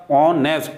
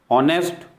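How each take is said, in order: First: honest in two parts, ऑ, nest; split into syllables. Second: Said in the usual way. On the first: Shown as a demonstration. Teacher showing the same happens here, word broken up. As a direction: set ऑ apart from nest in honest. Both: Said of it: "यहाँ syllable एक से ज़्यादा है".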